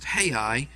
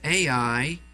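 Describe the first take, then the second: First: The name starts with an h sound. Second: The name starts with a plain vowel sound.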